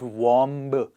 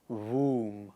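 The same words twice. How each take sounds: First: The final b is sounded. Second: The final b is silent. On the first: The speaker calls it wrong. "Not womb" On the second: The speaker calls it right. "It is womb"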